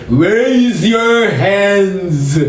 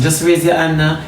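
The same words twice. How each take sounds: First: Mock heavenly voice. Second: Said in the usual way. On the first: Shown as a demonstration. Preacher mocks the voice people expect from God, grand and drawn out. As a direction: stretch every word like a grand voice from above. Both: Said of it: "You never hear voice say".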